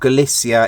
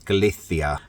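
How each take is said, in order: First: The name is said with an English pronunciation. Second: The name is said with a Spanish pronunciation. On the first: "if you want to pronounce it the uh, English way" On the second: "the Spanish way is Galicia"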